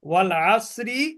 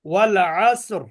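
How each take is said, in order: First: The phrase ends with a pronounced final vowel. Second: The phrase ends on a consonant, vowel dropped.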